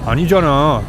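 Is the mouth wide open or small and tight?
small. It is said with a small, tight mouth. The speaker calls it right.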